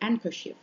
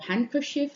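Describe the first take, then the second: First: The h sound at the start is dropped. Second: The h sound at the start is pronounced.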